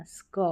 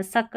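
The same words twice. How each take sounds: First: स्क with a half स joined to क; correct blend. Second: सक with a vowel after स; wrong split reading. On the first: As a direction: slide the s straight into क in स्क. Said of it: "एससी को स्क पढ़ना". (सही उच्चारण: स्क, आधा स क से जुड़ा) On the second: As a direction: separate स and क in सक. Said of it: "सक नहीं पढ़ना". (गलत उच्चारण: सक, स और क अलग) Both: Shown as a demonstration.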